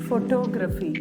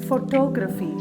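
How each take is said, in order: The two takes are said the same way.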